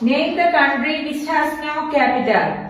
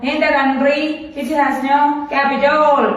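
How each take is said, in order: First: The last word ends with a 'tal' sound. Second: The last word ends with a 'tol' sound. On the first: The speaker calls it right. "ഇവിടെ" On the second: The speaker calls it wrong. "അല്ലാതെ ... ഇങ്ങനെയല്ല വായിക്കാറുള്ള"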